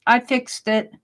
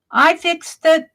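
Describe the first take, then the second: First: Said in the usual way. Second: I fixed it, pitched up and louder with stress on it; proud streamer tells chat, I fixed it, higher and louder; emphatic, higher and louder. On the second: Real, not acted.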